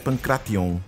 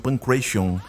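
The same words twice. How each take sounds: First: It is pronounced the way Greek speakers say it. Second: It is pronounced the way English speakers say it. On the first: "no grego original a pronúncia é Pancration" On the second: "Os nativos da língua inglesa falam Pancration"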